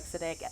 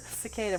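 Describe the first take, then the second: First: "cicada" said as "si-KAH-dah" with a flat a; "cicada" with the middle vowel twisted to "ah"; mock mispronunciation. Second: Said in the usual way. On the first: Shown as a demonstration. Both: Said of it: "more like".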